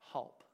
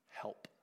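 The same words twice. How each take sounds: First: The vowel is changed to an 'a' sound. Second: The vowel is the ordinary 'e' sound.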